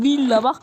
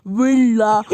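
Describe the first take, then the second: First: Villa with a clear v, "vila"; correct villa. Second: Villa said as "wela" with a w sound; mispronounced villa. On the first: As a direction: show how villa goes, crisp v. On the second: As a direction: Villa with w instead of v. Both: Shown as a demonstration. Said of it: "Allah daha villa demeyi bilmişsen".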